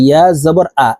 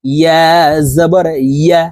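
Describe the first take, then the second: First: ইয়া জবর আ with the y dropped from the last syllable; casual misreading that ends in a bare vowel আ; common mispronunciation. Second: ইয়া drawn out with a clear y glide; careful model ending in ইয়া, y from mid-tongue; correct mid-tongue ইয়া. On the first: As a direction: demonstrate the faulty plain আ ending. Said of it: "এইভাবে পড়ে থাকি". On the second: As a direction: teach ইয়া জবর ইয়া with pauses and a firm y. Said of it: "জিহ্বার মধ্যখান থেকে পড়তে". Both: Shown as a demonstration.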